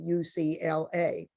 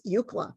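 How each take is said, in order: First: Each letter is spoken separately. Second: It is spoken as a single word. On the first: "that means that we say U C L A" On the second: "which is a true acronym"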